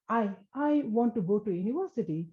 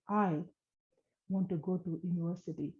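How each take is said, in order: First: The first word is stammered and repeated. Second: It is said slowly and calmly, without repeating.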